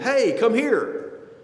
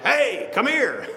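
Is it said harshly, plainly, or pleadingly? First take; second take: plainly; harshly. First: It is called out plainly, with no harshness. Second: It is called out harshly and roughly.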